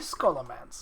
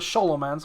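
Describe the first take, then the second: First: The name is said with an English pronunciation. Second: The name is said with a Romanian pronunciation. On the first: "because that's how you pronounce it in English" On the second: "which is actually how it should be pronounced because that's from Romania"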